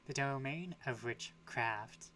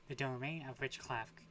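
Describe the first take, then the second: First: The R in the last word is clearly pronounced. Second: The R in the last word is slurred. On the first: The speaker calls it right. "Gotta enunciate that R" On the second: The speaker calls it wrong. "I said it again"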